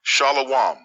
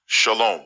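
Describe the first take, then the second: First: "shalawam" stretched into three syllables; mock mispronunciation. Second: "shalom" as sha-LOME; "shalom" with no w sound, ending -lome; correct pronunciation. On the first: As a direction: say "shalawam" with a w breaking up the ending. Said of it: "Not shalawam". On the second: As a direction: say "shalom" in two syllables with a long o. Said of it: "This word is pronounced shalom". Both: Shown as a demonstration.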